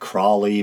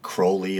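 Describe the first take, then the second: First: The first syllable rhymes with "crawl". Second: The first syllable rhymes with "crow". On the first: The speaker calls it wrong. "a lot of people pronounce it Crawley" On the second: The speaker calls it right. "I believe Crowley is the proper pronunciation"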